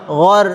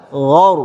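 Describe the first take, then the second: First: "ghor" with a thin, light r; "ghor" said thin, not thick; wrong thin ra. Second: "ghaur" with a thick, full r and rounded vowel; "ghaur" said heavy and round. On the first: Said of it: "Bukan ghor". ("ghor" tipis, salah) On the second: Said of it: "yang tebal". ("ghaur" dengan ra tebal) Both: Shown as a demonstration.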